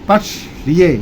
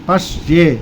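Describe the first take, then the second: Both takes have the same delivery.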